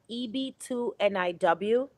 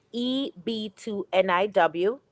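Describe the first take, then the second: No difference in how they are said.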